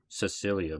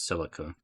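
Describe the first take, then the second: First: The name is said like Cecilia. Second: The name is said like Silica. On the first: The speaker calls it wrong. "I was calling her name Cecilia before" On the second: The speaker calls it right. "apparently you pronounce it as Silica"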